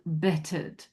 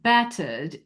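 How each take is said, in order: First: The first vowel is a short 'e' sound. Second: The first vowel is an open 'a' sound. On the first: "more of a short E" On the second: "instead of battered"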